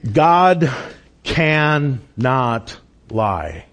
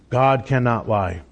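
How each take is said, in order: First: "cannot" stretched very slowly, pause after "God"; slow emphasis. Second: Said in the usual way. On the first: Shown as a demonstration. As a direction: let "God" hang, then "cannot" drawn out slowly. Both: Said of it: "want to continue to emphasize".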